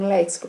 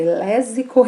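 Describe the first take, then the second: First: The x is sounded as ks. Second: The x is sounded as a plain s. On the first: The speaker calls it right. "a pronúncia correta do termo léxico" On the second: The speaker calls it wrong. "para evitar que a pessoa fale"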